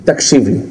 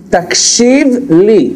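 First: Said in the usual way. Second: Slow. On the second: Shown as a demonstration.

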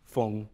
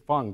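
First: Feng said the Chinese way, with a rounder vowel; Chinese name. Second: Feng said the English way, like "fung"; anglicized name. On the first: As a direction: give Feng its Chinese pronunciation. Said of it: "So he's also the Chinese". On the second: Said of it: "Feng is, you know, is a Cantonese spelling". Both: Shown as a demonstration.

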